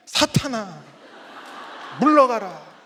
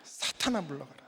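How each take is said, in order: First: Retold cry of banishment, loud; loud, drawn-out command to be gone; loud rebuke. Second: Whispered command fading away; acted whisper, very soft; hushed rebuke. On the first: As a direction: cast out the devil at full voice, retold. Acting out rebuke at his wife. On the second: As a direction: mutter the banishment under your breath. Same rebuke repeated under breath.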